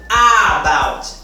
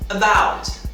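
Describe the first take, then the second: First: The first vowel is full and emphasized. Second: The first vowel is reduced and very weak. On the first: The speaker calls it wrong. "não deve ser pronunciado about. Não é com essa ênfase toda" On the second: The speaker calls it right. "uma pronúncia mínima, disfarçada"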